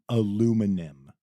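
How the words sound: It is said the American way, four syllables. The speaker calls it wrong. "in the U S we say very wrong"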